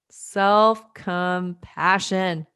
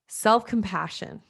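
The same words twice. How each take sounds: First: "Self-compassion" drawn out slowly, part by part; slow emphatic repetition. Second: Said in the usual way. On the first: Shown as a demonstration. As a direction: stretch out "Self-compassion" so every syllable lands. Repeats term slowly for emphasis.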